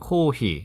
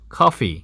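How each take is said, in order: First: The second syllable starts with an h sound. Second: The second syllable starts with an f sound. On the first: "일본어의 코히" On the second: "영어로는 뭡니까? 커피"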